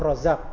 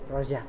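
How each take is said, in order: First: The middle consonant is a clear 'z' sound. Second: The middle consonant is a 'j' sound. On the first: "kita panggil Abdul Razak" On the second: "Jawa kan yang medok ... nggak bisa ngomong Z"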